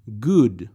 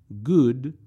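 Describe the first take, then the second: First: "Good" said firmly with the pitch falling; falling tune. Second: "good" said with the pitch lifting at the end; rising tune. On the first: Teacher modelling a word for students, "Good" falling. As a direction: drop the pitch on "Good" to close it. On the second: Teacher modelling a word for students, "good" rising. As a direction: let "good" rise as if the list goes on. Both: Shown as a demonstration. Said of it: "vocab drill, two takes".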